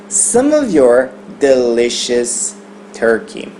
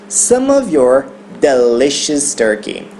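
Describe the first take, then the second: No difference in how they are said.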